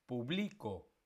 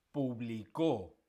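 First: PuBLIco, middle syllable stressed; stress on second syllable. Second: Slow publiCÓ; publicó with the weight on the final CÓ; stress on last syllable. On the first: Teacher contrasts three words, second stressing puBLIco. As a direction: publico with the weight on BLI. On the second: Teacher contrasts three words, third stressing publiCÓ. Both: Shown as a demonstration. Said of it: "diferentes acentos".

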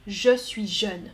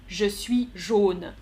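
First: "jeune" slow with a closed eu; slow contrast. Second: "jaune" slow with an open rounded o; slow contrast. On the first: Teacher contrasts young and yellow for the class, slowly. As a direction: stretch "jeune" rounded and narrow. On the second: Teacher contrasts yellow and young for the class, slowly. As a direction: stretch the o in "jaune". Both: Shown as a demonstration. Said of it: "C'est différent".

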